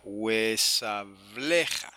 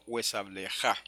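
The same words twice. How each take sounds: First: Huesableja very slow, syllable by syllable, heavy on "ble"; penultimate stress. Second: Huesableja stressed on the last syllable "ja"; wrong final stress. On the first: Teacher showing where the accent goes, slow stress on "ble". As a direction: stretch out huesableja and hit "ble". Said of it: "el acento va ahí en esa sílaba". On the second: Teacher showing the wrong accent, stress on last syllable. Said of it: "y no huesableja". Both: Shown as a demonstration.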